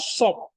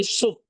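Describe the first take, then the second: First: "sop" said with an open o, the way you shouldn't; teacher demos the wrong "sop" with an o. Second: "sup" said with a clear u, the correct way; teacher models "sup" with a u; right sup. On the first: Teacher showing students the mistaken o in "sop". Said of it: "Kamu kan nggak ngomong sop". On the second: Teacher correcting class, says "sup" with a clear u. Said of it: "tapi sup". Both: Shown as a demonstration.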